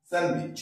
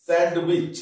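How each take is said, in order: First: স্যান্ডউইচ pronounced as san-wich; correct silent D. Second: স্যান্ডউইচ with an audible D, sand-wich; common mistake, D sounded. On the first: Teacher shows students the right way, স্যান্ডউইচ as san-wich. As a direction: drop the D in স্যান্ডউইচ. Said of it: "তাহলে আমরা করবো এখানে কি". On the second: Teacher shows what we often get wrong, স্যান্ডউইচ as sand-wich. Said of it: "আমরা প্রায় ভুল করি". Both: Shown as a demonstration.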